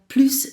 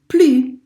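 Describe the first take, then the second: First: The final S sound is pronounced. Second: The final S sound is silent. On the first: The word is not part of a negative expression. "I pronounced the S in there" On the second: The word is part of a negative expression. "I don't pronounce the S because it's part of a negative expression"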